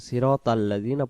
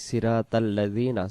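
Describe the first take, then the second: No difference in how they are said.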